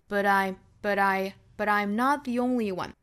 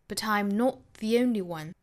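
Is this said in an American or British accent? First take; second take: American; British. First: It is said in an American accent with a flapped t. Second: It is said in a British accent. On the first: "美音经常会把它发成一个 flap t" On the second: "用英音来读"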